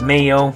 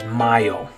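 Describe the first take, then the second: First: It is said with an English pronunciation. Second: It is said with a Spanish pronunciation. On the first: It means mayonnaise. "we have the word mayo in English for mayonnaise, and the way you would pronounce it is mayo" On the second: It means the month May. "But in Spanish, this one means May ... the way you pronounce it is mayo"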